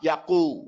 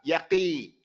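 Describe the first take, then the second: First: The q is followed by a u vowel. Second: The q is followed by an i vowel. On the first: "or separate to a dhamma" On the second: "or separate to a kasra"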